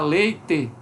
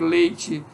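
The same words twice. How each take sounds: First: It is said in the Paraná regional pronunciation. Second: It is said in the usual local pronunciation. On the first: "algumas pessoas falam, por exemplo, no Paraná" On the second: "Se alguém disser aqui leite"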